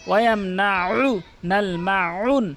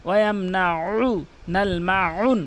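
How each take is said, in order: The two takes are said the same way.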